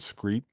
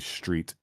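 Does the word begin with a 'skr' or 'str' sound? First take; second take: skr; str. First: The word begins with a 'skr' sound. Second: The word begins with a 'str' sound. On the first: Other people said it this way. The speaker calls it wrong. "when people were saying like Elementary and Scrawl and Screet" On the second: The speaker said it this way. The speaker calls it right. "So I would say street"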